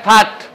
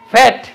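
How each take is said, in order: First: The vowel is an open 'aa' as in father. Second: The vowel is a front 'a' as in cat. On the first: The speaker calls it wrong. "কেউ যদি বলে ফাট হবে না এর উচ্চারণ আ বলা যাবে না" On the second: The speaker calls it right. "এই যে অ জফলা আকার এ ফ্যাট"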